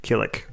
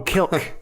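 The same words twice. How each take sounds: First: "Killik" said in two syllables, with a second i; two-syllable pronunciation. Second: "Kilk" said like silk with a K; "Kilk" with no vowel between l and k; one-syllable pronunciation. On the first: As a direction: say "Killik" with the i after the l. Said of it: "Without the second I". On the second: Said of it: "Like silk with a K". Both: Shown as a demonstration.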